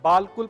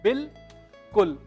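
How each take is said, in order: First: The first vowel is a long 'aa'. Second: The first vowel is a short 'i'. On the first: The speaker calls it wrong. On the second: The speaker calls it right.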